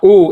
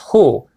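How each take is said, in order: First: It starts directly with a vowel, no h. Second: It starts with a breathy h sound. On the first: The speaker calls it wrong. "it's not u" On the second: The speaker calls it right. "it's hu"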